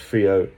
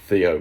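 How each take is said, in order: First: The name begins with an f sound. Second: The name begins with a th sound. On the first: The speaker calls it wrong. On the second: The speaker calls it right.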